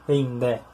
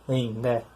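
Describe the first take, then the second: Both takes have the same delivery.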